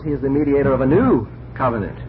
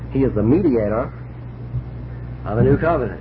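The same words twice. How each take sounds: First: The word covenant is stressed. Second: The word mediator is stressed. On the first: "in the other case you're stressing covenant" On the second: "in one case you're stressing mediator"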